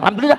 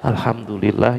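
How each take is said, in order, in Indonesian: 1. Diucapkan dengan cepat dan santai, tanpa perasaan. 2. Diucapkan dengan pelan dan hangat, penuh perasaan.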